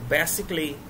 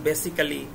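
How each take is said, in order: First: The ending is said as one syllable, 'cly'. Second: The ending is said as two syllables, 'cally'. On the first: The speaker calls it right. "এগুলোর উচ্চারণ হবে ক্লি" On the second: The speaker calls it wrong. "এটা উচ্চারণ ভুল"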